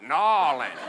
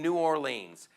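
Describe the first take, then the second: First: The name sounds choked and swallowed. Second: The name is said plainly and openly. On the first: A local says the name. The speaker calls it right. "like you're choking on a peanut" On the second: An outsider says the name. The speaker calls it wrong. "I am sorry if I'm saying it wrong"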